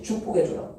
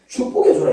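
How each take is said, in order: First: 축복해줘라 said softly, almost unvoiced, falling; soft repeat. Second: 축복해줘라 said strong and loud, falling at the end; firm declaration. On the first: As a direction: drop to a near whisper on 축복해줘라. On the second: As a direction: proclaim 축복해줘라 with force. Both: Shown as a demonstration. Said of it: "이렇게".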